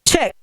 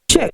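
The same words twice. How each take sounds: First: The voice has an echoing delay effect. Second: The voice has a low octave added beneath. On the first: "we have delay" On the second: "we have the bass octave"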